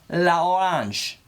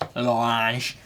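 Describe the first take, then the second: First: The article is said as a separate syllable. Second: The article is joined onto the noun. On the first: The speaker calls it wrong. "I don't really know if that's how you say it" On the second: The speaker calls it right. "it sounds like it should be l'orange"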